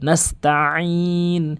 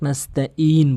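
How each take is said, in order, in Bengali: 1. মাঝখানে একটি সংকুচিত গলার 'ain' ব্যবহার করা হয়। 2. মাঝখানে একটি সাধারণ গ্লটাল স্টপ ব্যবহার করা হয়। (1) "নাস্তাইন বলবেন" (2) "আইনের জায়গায় হামজার উচ্চারণ করে ফেলে"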